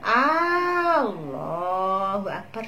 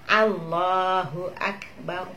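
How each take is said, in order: First: The first vowel A is drawn out long. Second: The phrase is said plainly with normal vowels. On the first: The speaker calls it wrong. "dipanjangkan A-nya" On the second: The speaker calls it right.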